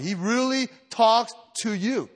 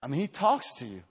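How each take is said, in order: First: "really" leaned on, slow and insistent; slow down and press "talks" home; slow emphatic. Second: Said in the usual way. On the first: Shown as a demonstration. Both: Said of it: "I don't know what to tell you".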